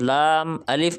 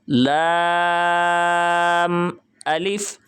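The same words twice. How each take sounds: First: The letter names are said short and clipped. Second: The letter names are said fully with lengthened vowels. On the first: The speaker calls it wrong. "इस तरह नहीं करना" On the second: The speaker calls it right. "हर्फ की अदायगी हमने पूरी करनी है"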